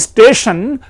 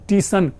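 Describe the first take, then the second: First: The word begins with an s-t cluster. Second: The s is dropped, starting with long 'tee'.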